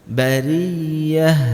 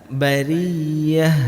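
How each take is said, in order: Both takes have the same delivery.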